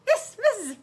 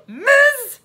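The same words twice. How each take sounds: First: Put-on high girl's voice; high-pitched child's confirmation; girl confirming. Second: Loud, high query; loud, raised officer echoing; incredulous policeman. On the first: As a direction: answer high and simply. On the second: Acted. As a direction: boom it back in disbelief. Policeman queries the title.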